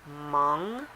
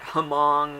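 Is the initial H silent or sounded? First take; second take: silent; sounded. First: The initial H is silent. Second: The initial H is sounded. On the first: The speaker calls it right. "the H is silent" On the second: The speaker calls it wrong. "which is completely wrong"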